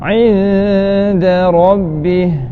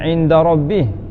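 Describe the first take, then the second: First: The d sound is light and thin. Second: The d sound is heavy and thick. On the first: The speaker calls it right. "Inda nipiskan huruf huruf dal eh" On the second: The speaker calls it wrong. "Jangan inda rabbih"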